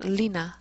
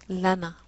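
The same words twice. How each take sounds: First: The first syllable is said as li. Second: The first syllable is said as la. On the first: The speaker calls it wrong. "So not" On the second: The speaker calls it right. "the pronunciation changes"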